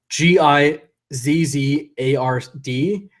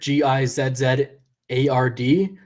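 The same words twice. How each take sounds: First: The letters are spelled in an American accent. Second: The letters are spelled in a non-American accent.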